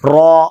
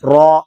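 First: The r syllable is said heavy with rounded lips. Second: The same.

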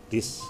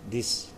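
The two takes are said the same way.

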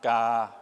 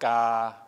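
The two takes are said the same way.

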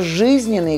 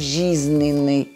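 First: The zh sound is pronounced hard. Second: The zh sound is pronounced soft. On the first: The speaker calls it right. "«Ж» и «ше» всегда надо произносить твердо" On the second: The speaker calls it wrong. "Это тоже неправильно"

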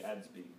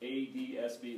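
First: Part of the acronym is said as one word. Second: Each letter of the acronym is said separately.

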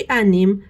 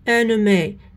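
First: The word ends in an 'm' sound. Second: The word ends in an 'ay' vowel. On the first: The speaker calls it wrong. "ماشي" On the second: The speaker calls it right. "واسمها"

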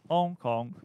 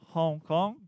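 First: The H at the start is silent. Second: The H at the start is pronounced.

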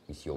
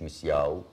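First: The word ends with an 'oo' sound. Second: The word ends with an 'ow' sound. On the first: The speaker calls it right. "مسيو مسيو مش مسياو" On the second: The speaker calls it wrong. "مش مسياو"

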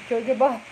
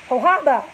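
First: The word begins with a j sound. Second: The word begins with an h sound. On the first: The speaker calls it wrong. "Can I say that wrong?" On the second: The speaker calls it right. "I was real off"

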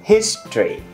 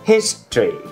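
First: The word is said with two syllables. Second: The same.

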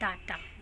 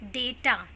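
First: The first vowel is 'ah'. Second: The first vowel is 'ay'. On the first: The speaker calls it wrong. "Not डाटा" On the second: The speaker calls it right. "It is डेटा"

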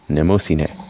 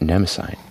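First: The name is said with Japanese-style vowels. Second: The name is said with English-style vowels. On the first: The speaker calls it right. "That's how it's pronounced" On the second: The speaker calls it wrong. "It's definitely not Nemosine"

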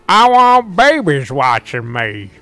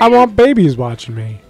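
First: It is said in an Old Man McGucket voice. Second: It is said in his normal voice.

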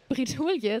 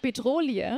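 First: It is said the French way, 'bre-dull-yuh'. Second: It is said like 'be-droh-lee', as in bedrohlich. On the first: The speaker calls it right. "nein, andersrum" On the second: The speaker calls it wrong. "ich weiß, dass sie falsch ist, sie fühlt sich nur für mich richtiger an"

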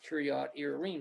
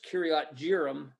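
First: The second word starts with a Y sound. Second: The second word starts with a J sound. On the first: This is the original pronunciation. The speaker calls it right. "but properly pronounced Kiriath Yearim" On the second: This is the form found in English Bibles. The speaker calls it wrong. "In our English Bibles, it's Kiriath Jearim"

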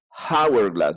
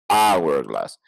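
First: The word begins with an audible h sound. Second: The word begins with no h sound. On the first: The speaker calls it wrong. "No es hourglass, no es house, no es hen" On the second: The speaker calls it right. "es hourglass"

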